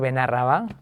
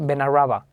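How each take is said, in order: First: The stress falls where local speakers place it. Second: The stress falls where foreign speakers misplace it. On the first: The speaker calls it right. "cuando le haces pronunciar Benarraba" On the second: The speaker calls it wrong. "muchos dicen, no sé por qué, Benarraba"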